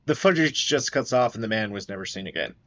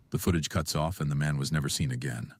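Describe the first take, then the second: First: Said in the usual way. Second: Ominous documentary narration; true crime narrator. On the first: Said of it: "The ending of that made that really sound fake". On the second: Acted. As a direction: deliver it like a spooky voiceover. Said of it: "Please, please. The ending of that".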